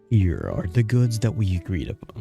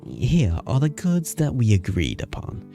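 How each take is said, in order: First: It is said in the speaker's ordinary accent. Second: It is said in a put-on British accent.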